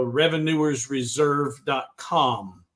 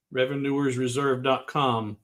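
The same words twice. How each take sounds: First: Revenuers reserve dot com spelled out slowly; careful slow web address; slow and deliberate. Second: Said in the usual way. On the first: Shown as a demonstration.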